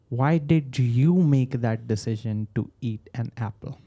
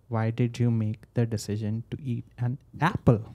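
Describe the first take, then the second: First: The word "you" carries the strongest stress. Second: The word "apple" carries the strongest stress. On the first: It questions why this person in particular decided. "why did you, when I when I increase my tone on you" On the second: It questions whether something else should have been eaten. "When I say apple, you're like, should I have eaten something else?"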